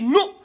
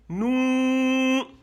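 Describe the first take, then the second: First: The vowel is short and clipped. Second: The vowel is long and drawn out. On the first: "au lieu de dire nous" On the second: "C'est tiré maintenant"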